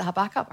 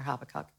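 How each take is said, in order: First: Habakkuk stressed on the middle syllable, ha-BAK-kuk; alternative pronunciation. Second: Habakkuk stressed on the first syllable, HAB-a-kuk; alternative pronunciation. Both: Shown as a demonstration. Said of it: "How do you pronounce that".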